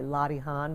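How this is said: The word is said with a New York accent. "I pronounce it the New York way"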